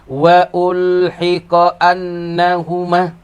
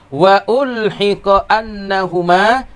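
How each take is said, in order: The two takes are said the same way.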